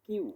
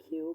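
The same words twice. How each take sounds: First: Said in the usual way. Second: কিউ as "khyu", puff after k; aspirated Q. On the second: Shown as a demonstration. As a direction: release breath on the k of কিউ. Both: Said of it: "সঠিক উচ্চারণ হবে".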